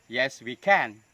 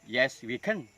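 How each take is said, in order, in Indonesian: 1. 'Can' terakhir diucapkan dalam bentuk penuh. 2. 'Can' terakhir diucapkan dalam bentuk reduksi.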